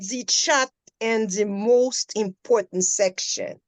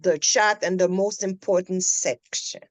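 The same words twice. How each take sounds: First: 'The' is pronounced with a long 'ee' vowel. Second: 'The' is pronounced with a short 'uh' vowel. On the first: The speaker calls it wrong. "I heard" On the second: The speaker calls it right. "instead of"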